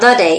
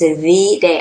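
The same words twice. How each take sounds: First: The word 'the' is said the ordinary way. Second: The word 'the' is said the old-fashioned way. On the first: It is just a day. The speaker calls it wrong. "Not the day" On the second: It is the most important day of all. The speaker calls it right. "I'm even using old time language to underscore the importance of this day"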